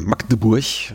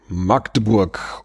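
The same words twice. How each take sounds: First: The name is said the way locals say it. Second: The name is said the common non-local way.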